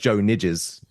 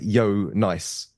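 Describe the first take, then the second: First: The name begins with a J sound. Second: The name begins with a Y sound. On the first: It is read the way an English speaker would. The speaker calls it wrong. "as you read his name, it looks like Joe Nidges" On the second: It is said the way it is in Belgium. The speaker calls it right. "you actually pronounce it Yo Nice"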